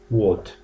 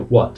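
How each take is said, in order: First: It is said with a British accent. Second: It is said with an American accent.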